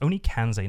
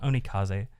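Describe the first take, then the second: First: An n sound comes right before the z. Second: No n sound comes before the z. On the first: The speaker calls it right. "It's Onikanze" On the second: The speaker calls it wrong. "not Onikaze"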